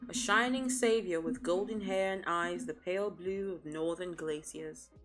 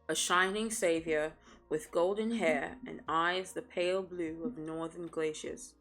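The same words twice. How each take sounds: First: The sentence is read at a fast pace. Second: The sentence is read at a slower pace.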